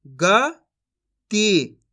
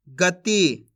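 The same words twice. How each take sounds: First: गति very slowly split as "ग ... ती"; syllable by syllable. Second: Said in the usual way. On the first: Shown as a demonstration. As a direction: sound out गति with a long gap inside. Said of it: "एक अक्षर का उच्चारण करके". (गति को तोड़कर, धीरे-धीरे) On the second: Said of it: "इनको आपस में लाके पढ़ देना है".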